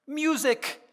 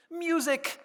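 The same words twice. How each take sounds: The two takes are said the same way.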